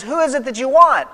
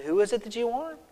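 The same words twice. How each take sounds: First: A touch louder, firm question; firm challenge. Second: Softer, hushed repeat of the question; quiet retelling. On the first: Jesus facing the arresting soldiers, firm and a touch loud. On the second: Jesus asking the soldiers a second time, quiet and hushed. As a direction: ask it again, gently and quietly. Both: Retold or imitated.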